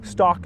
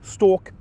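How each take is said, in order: First: The vowel is an open ah sound. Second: The vowel is a long or sound. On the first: This is a common American pronunciation. "many in America will pronounce them as" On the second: This is a common English pronunciation. "many in England will pronounce them"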